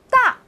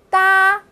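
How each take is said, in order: First: The syllable is said with a sharp falling tone. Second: The syllable is said with a high level tone. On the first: "哒的四声" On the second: "哒的四声"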